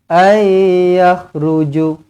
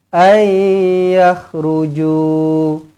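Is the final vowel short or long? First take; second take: short; long. First: The final vowel is cut short. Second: The final vowel is held long. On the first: The speaker calls it wrong. "Tak boleh" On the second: The speaker calls it right. "dua harakat panjang"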